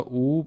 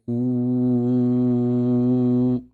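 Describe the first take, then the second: First: The vowel is held moderately long, about two counts. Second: The vowel is held very long, about six counts. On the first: "we got the wow making it longer" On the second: "we're gonna make this really long as well. Make it six counts"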